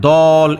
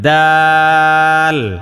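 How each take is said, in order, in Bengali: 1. শব্দটি ভারী, মোটা উচ্চারণে বলা হয়। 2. শব্দটি হালকা, পাতলা উচ্চারণে বলা হয়। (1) "মানে দল এরকম না। দোয়াদের মতো যাতে না হইয়া যায়।" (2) "এটার উচ্চারণটা পাতলা হবে"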